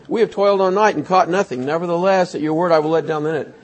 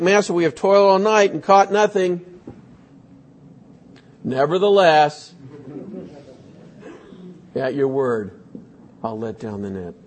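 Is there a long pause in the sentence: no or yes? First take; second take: no; yes. First: It is said without a long pause. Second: It is said with a long pause.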